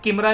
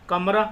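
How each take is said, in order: First: The first vowel is an 'i' sound. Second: The first vowel is an 'a' sound. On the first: The speaker calls it wrong. "अब इसको किमरा नहीं बोलेंगे" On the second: The speaker calls it right. "हाँ कमरा होता है room"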